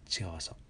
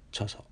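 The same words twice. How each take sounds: First: チヨソ with an unmerged チ-ヨ; separate syllables. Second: チョソ with a single merged チョ; fused syllables. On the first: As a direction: keep チ and ヨ as two sounds in チヨソ. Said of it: "このあたり意識しながら発音する". (チとヨを意識して分けた「チヨソ」) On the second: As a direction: squash チ and ヨ together in チョソ. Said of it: "チョソじゃなくてチヨソ". (チヨを縮めて「チョソ」と発音) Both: Shown as a demonstration.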